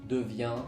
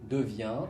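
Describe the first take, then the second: No difference in how they are said.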